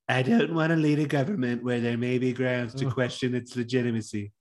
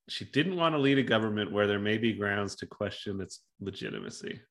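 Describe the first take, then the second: First: It is said in a put-on voice. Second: It is said in her normal voice.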